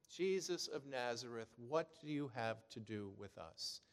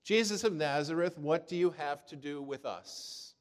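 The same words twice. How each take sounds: First: Said in the usual way. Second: Loud, raised cry of a possessed man. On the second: Retold or imitated. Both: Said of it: "he cries out".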